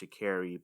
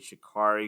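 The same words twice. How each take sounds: First: The name is said without a clear R sound. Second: The name is said with a clear R sound. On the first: The speaker calls it right. "I'm pretty sure her name is pronounced Shikari" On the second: The speaker calls it wrong. "because I see that A R, and I want to make that R sound"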